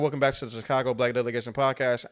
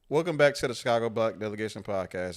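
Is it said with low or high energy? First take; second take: high; low. First: It is said with high, lively energy. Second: It is said with low, tired energy.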